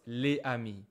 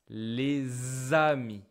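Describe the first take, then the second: First: The s is silent with no linking z. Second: A z sound links les to amis. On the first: The speaker calls it wrong. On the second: The speaker calls it right. "So it will sound like"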